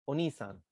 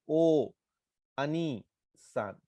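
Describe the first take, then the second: First: One joined word, dropping a and lengthening ni. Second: Three separate parts, keeping the middle a sound. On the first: The speaker calls it right. "वो बीच का जो अ है उसको छोड़ देते हैं" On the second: The speaker calls it wrong. "अब अगर आप ऐसे पढ़ने की कोशिश करें तो"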